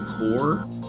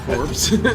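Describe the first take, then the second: First: The word ends in an r sound. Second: The word ends with added p and s sounds. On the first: The speaker calls it right. "called the Core" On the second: The speaker calls it wrong. "I always called it the corpse because that's I mean I didn't understand how it's pronounced"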